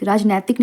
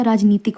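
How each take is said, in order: First: राजनैतिक with ai in the middle; wrong form shown. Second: राजनीतिक with a long ee after n; correct pronunciation. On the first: Teacher citing the mistake, राजनैतिक with ai after n. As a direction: say राजनैतिक as raaj-naitik. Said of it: "राजनैतिक नहीं होता". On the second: Teacher giving the correct form, राजनीतिक with long ee. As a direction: say राजनीतिक as raaj-neetik. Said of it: "राजनीतिक होता है". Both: Shown as a demonstration.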